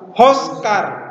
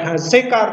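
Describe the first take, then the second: First: The first vowel is a rounded 'o' sound. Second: The first vowel is an open 'a' sound. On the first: The speaker calls it right. "tapi hoskar karena ini hofal" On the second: The speaker calls it wrong. "bukan hazekar"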